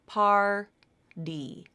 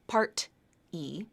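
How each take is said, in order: First: A soft flap starts the second syllable. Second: A clear T ends the first syllable. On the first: The speaker calls it right. "That word has the flap" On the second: The speaker calls it wrong. "Not part-E"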